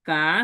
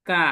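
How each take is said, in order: First: The pitch dips low, then rises. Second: The pitch falls sharply across the syllable. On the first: "third tone" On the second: "fourth tone"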